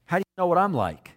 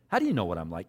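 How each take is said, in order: First: Said in the usual way. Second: Doubting and sarcastic, dropped low. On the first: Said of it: "This is Nathanael". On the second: Acted. Nathanael doubting that Jesus knows him, sarcastic. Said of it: "even the sarcasm in his voice".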